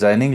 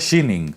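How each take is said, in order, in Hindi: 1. यह शब्द 'j' की आवाज़ से शुरू होता है। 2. यह शब्द 'sh' की आवाज़ से शुरू होता है। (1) "हिंदी में ट्रांसलेट करके जाइनिंग लिख दिया" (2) "इसका जो सही में उच्चारण है वो है शीनिंग"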